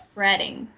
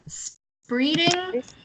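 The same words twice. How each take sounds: First: The first vowel sounds like a short 'eh'. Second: The first vowel sounds like a long 'ee'. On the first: The speaker calls it right. "it's like eh instead of E sound" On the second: The speaker calls it wrong. "you pronounced it as spreading"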